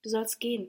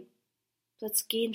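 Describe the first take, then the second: First: Said in the usual way. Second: "gehen" stretched out slowly; drawn-out resignation. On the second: A narrator's reading. Diotima lets her proud lover go, slow and resigned on "gehen". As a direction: give in slowly, lingering on "gehen".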